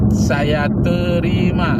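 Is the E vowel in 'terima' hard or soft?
soft. The E vowel in terima sounds soft. It follows the Riau Malay standard. The speaker calls it right. "Merujuklah kepada bahasa Melayu Riau"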